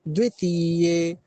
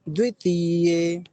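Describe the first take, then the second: No difference in how they are said.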